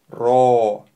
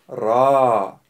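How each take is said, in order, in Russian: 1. Гласный округлён, губы вытянуты вперёд. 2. Гласный открытый, губы не округлены. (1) "Не нужно делать губы трубочкой" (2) "Правильно произносить"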